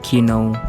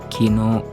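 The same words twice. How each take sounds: First: The final vowel is cut short. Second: The final vowel is held long. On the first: The speaker calls it wrong. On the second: The speaker calls it right. "diucapkan panjang"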